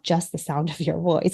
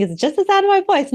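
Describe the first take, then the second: First: Said in the usual way. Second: Higher, dismissive voicing of a common belief; naive assumption. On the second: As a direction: play the person who thinks it's simple. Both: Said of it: "No, there are actually five elements".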